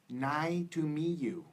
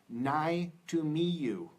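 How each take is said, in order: First: The final consonant sounds are dropped. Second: The same.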